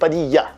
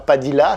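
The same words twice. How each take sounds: First: The lh is said as a palatal ly. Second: The lh is said as a plain l. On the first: The speaker calls it right. "c'est Padilla" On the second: The speaker calls it wrong. "c'est pas Padilla"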